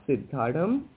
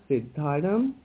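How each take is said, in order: The two takes are said the same way.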